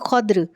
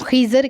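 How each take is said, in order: First: An a vowel, then no vowel before r. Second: An i vowel, then an a before r. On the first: "ख़ा के ऊपर ज़बर और दौद के ऊपर जिज़म" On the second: "ख़ा के नीचे ज़ेर और दौद के ऊपर ज़बर"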